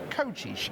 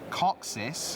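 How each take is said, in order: First: The name has ch and sh sounds. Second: The name has plain ks and s sounds. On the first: The speaker calls it right. "It's pronounced Cochish. because apparently C S is C H, and S equals S H" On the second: The speaker calls it wrong. "apparently not"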